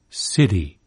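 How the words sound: The t is voiced and tapped like a quick d. "voiced and even tapped, as in American city"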